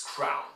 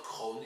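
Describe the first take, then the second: First: "crown" with the ow glide; correct diphthong. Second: "crown" mispronounced as "kroon"; one long vowel in "kroon", no ow glide; wrong vowel. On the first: Teacher corrects the kroon mistake, "crown" with ow diphthong. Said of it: "it's not, it's crown". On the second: Teacher shows students the mistake, "kroon" without the diphthong. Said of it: "it's not kroon". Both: Shown as a demonstration.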